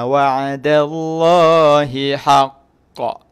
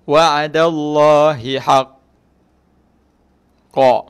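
First: The final bounce is slightly slow and brief. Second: The final bounce is held far too long. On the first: The speaker calls it right. "lambat sikit, dia tinggi sikit lantunannya tu" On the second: The speaker calls it wrong. "Itu lama sangat tu"

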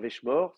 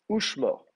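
First: The word starts with a v sound. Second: The word starts with an oo vowel. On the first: This is the modern Hebrew pronunciation. "En hébreu moderne, on le dirait, hein, veshmor" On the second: This is the biblical Hebrew pronunciation. "ce sera un chourek"

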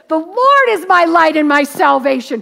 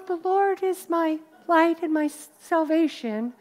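First: The words are said boldly and confidently. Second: The words are said timidly and unsurely. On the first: The speaker truly trusts God and is not afraid. The speaker calls it right. "I believe David said it like this" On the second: The speaker is doubtful and afraid. The speaker calls it wrong. "He didn't go, well, ... I hope he didn't sound like that"

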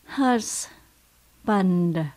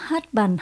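First: The s sound in the middle is clearly pronounced. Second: The s sound in the middle is left out. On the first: The speaker calls it right. "chúng ta có chữ S nhé" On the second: The speaker calls it wrong. "Mình đừng có đọc là husband"

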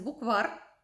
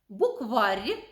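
First: The final r is hard. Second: The final r is softened. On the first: This is the standard form. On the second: This is the regional dialect form.

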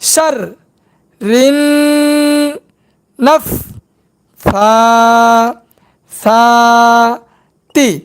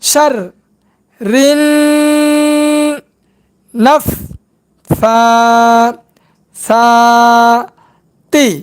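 Both takes have the same delivery.

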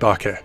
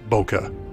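First: The first vowel sounds like in 'bottle'. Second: The first vowel differs from that in 'bottle'. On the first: The speaker calls it right. "I said bokeh, It's pronounced ba, as in bottle, and ke, as in kettle" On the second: The speaker calls it wrong. "not bokeh"

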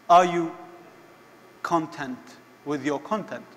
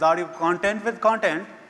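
First: It is said in the speaker's usual accent. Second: It is said in an Indian accent.

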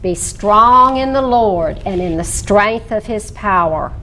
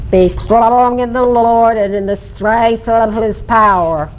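First: The words are spoken in a plain, clear voice. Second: The words are spoken with bubbling, finger-flapped lips.

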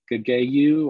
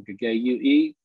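First: The word ends without an extra final vowel. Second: The word ends with an extra final vowel. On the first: "hardly anybody ever pronounces that" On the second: "it has a he on the end"

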